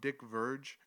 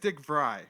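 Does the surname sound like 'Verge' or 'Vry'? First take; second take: Verge; Vry. First: The surname sounds like 'verge', ending in a j. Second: The surname sounds like 'fry' starting with v. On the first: The speaker calls it wrong. "my stupid brain sees his name and tries to automatically pronounce it how my brain sees it" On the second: The speaker calls it right. "Vry with kind of a V instead of Fry"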